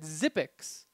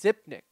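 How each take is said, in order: First: The name ends with an 'ix' sound. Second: The name ends with a 'nik' sound. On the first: This is how someone else said the name. The speaker calls it wrong. "He said Zipix" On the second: This is the name's real pronunciation. The speaker calls it right. "I know his name is Zipnik"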